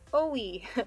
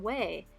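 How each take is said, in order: First: It is two separate vowels, o then e. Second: It is one syllable starting with a w. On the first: The speaker calls it wrong. "If I looked at that romanization, I might say like O-E" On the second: The speaker calls it right. "You say this one way"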